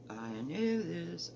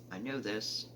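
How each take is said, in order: First: Drawn out, slow and a bit softer. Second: Said in the usual way. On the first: Real, not acted. Stitcher to her viewers, slowly drawn out. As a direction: stretch each word slowly, like savouring it. Repeats phrase, second take slower.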